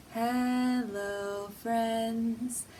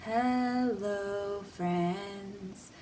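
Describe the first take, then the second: No difference in how they are said.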